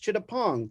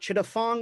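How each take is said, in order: First: The consonant before -ong is a P sound. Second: The consonant before -ong is an F sound. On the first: The speaker calls it right. "P H is a hard P" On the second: The speaker calls it wrong. "So it's not Chittafong"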